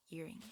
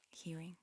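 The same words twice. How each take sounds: The two takes are said the same way.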